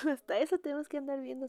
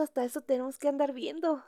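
First: Fast, laughing, higher; laughing repeat. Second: Said in the usual way. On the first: Shown as a demonstration. To the moms in the group, laughing fast.

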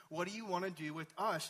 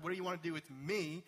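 First: "us" given the weight; stress on us. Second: "me" given the weight at the end; stress on me. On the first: Preacher showing the demon speaks as several, stress on "us". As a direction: lean on the word "us". Contrasts us with me. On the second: Preacher showing the demon didn't say singular, stress on "me". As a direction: lean on the final "me". Contrasts me with us. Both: Shown as a demonstration.

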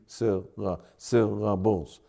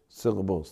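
First: "syllables" slowly split into syl, la, bles; slow, low, separated beats on "syllables". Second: Said in the usual way. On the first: Shown as a demonstration. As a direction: count out each syllable of "syllables". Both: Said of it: "That's three".

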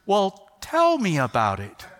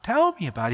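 First: Slow, deliberately calm dad voice; measured, composed invitation; forced calm. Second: Said in the usual way. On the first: Retold or imitated. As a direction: keep it level though panicking inside. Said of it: "I'm trying to stay really composed". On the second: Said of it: "Inside, I'm going nuts".

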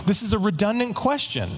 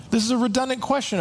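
First: Said in the usual way. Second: Higher and faster, pressing the point; exasperated higher emphatic repeat. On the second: Shown as a demonstration.

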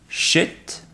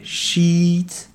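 First: Shit with a short lax i. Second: Sheet with a long tense ee. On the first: Teacher contrasting the short i in shit. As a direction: clip the vowel short in shit. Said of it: "le i court". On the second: Teacher contrasting the long ee in sheet. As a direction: stretch the ee in sheet. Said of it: "i long". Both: Shown as a demonstration.

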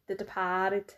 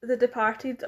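First: DEPARTED in a mock Boston accent; Boston-style "Departed", with a drawn-out A; imitated Boston accent. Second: Said in the usual way. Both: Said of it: "or as you say".

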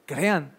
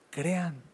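First: Said in the usual way. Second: Much softer, hushed echo of crean; softly repeated. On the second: Shown as a demonstration. Preacher urging the congregation to believe, softly. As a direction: let crean fall away almost to nothing.

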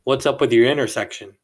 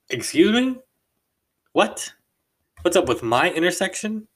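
First: Flat blunt demand, a bit louder; quoting a rude stranger's blunt question; blunt accusing question. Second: Much higher, louder rising disbelief; incredulous disbelief. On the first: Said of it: "His words, no lie". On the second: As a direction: echo it back, stunned and offended. Stunned reply to rude accusation. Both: Retold or imitated.

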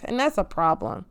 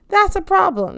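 First: Said in the usual way. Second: Raised, insistent second take; emphatic repeat. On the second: Real, not acted. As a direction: punch "That's" and drive the point home. Repeats the phrase louder.

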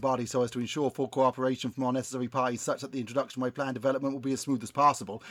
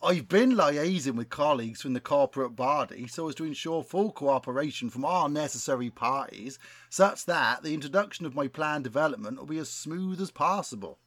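First: Put-on rattled off quickly in a West Country accent; fast West Country patter. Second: Put-on West Country accent. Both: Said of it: "best West Country accent".

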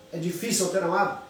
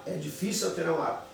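First: "É difícil alterar um hábito?" asked to the audience, fast; asked as a question. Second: "É difícil alterar um hábito." answered, softer, falling at the end, fast; answered as a statement. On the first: Pastor asks his audience a rhetorical question. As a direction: pose it as a question to the listeners. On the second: Pastor answers his own rhetorical question, falling. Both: Shown as a demonstration.

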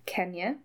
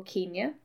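First: Kenya with a short e, as in ken; short-e pronunciation. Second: Kenya with an ee in the first syllable; long-ee pronunciation. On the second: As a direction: say Kenya as KEEN-ya. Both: Shown as a demonstration. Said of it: "People pronounce it differently".

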